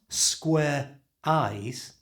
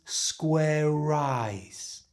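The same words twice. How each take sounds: First: The R stays with 'square', words kept apart. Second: The R moves to the start of 'eyes'. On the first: The speaker calls it wrong. "So it's not square eyes" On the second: The speaker calls it right. "it becomes square eyes"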